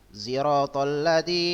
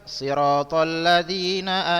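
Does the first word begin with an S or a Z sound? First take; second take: Z sound; S sound. First: The first word begins with a z sound. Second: The first word begins with an s sound. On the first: This is another accepted reading. "ada juga bacaan pakai zai" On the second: This is the commonly heard reading. "Itu yang kita dengar"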